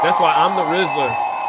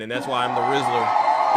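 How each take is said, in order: First: Shouted boast; louder boast. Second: Said in the usual way. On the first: Real, not acted. Host boasting to his chat, shouting. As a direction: proclaim it to the crowd.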